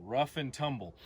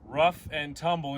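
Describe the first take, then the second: First: Said in the usual way. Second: Rough punched louder, falling finish; stress on rough. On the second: Shown as a demonstration. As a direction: hit the word rough and let the phrase fall. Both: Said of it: "One more time".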